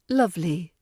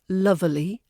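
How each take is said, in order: First: No extra r; the ending is light. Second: An extra r sound is added mid-word. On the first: The speaker calls it right. "the ly ending, it's light and soft" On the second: The speaker calls it wrong. "Not loverly"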